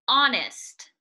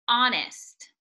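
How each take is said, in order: No difference in how they are said.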